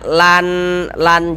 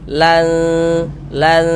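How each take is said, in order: First: The n sound is pronounced clearly and crisply. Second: The n sound is blurred with a nasal hum. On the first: The speaker calls it wrong. "Jangan dibaca lan lan jelas begitu" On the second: The speaker calls it right. "tapi disamarkan. Lan lan seperti itu"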